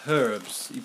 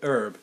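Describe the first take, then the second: First: The word begins with an h sound. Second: The word begins without an h sound. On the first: The speaker calls it right. "But there's clearly an H" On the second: The speaker calls it wrong. "Americans pronounce it herb"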